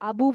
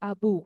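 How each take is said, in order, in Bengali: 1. শেষ স্বরটি হ্রস্ব। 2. শেষ স্বরটি দীর্ঘ। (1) "শুধু আবু বলবো না" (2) "এখানে আমরা বলবো হচ্ছে আবু"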